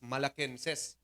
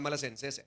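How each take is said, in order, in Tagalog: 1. Ang gitnang katinig ay tunog na 'k'. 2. Ang gitnang katinig ay tunog na 's'. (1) "Ang tamang pronunciation sini Manong Peter is Malakenses" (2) "naandan na siya nga Malasenses"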